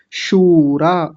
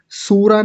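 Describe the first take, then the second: First: शूरा with sh and a long stretched oo; drawn-out long vowel. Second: सूरा with a plain s, said quickly; mispronunciation demo. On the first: Teacher models the word for pupils, slow शूरा with long oo. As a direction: stretch शूरा slowly as shooo-raa. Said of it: "थोड़ा सा लंबा खींचेंगे". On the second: Teacher shows the wrong sound, सूरा with plain s. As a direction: say सूरा with s instead of sh. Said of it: "ये वाला स नहीं बोलेंगे". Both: Shown as a demonstration.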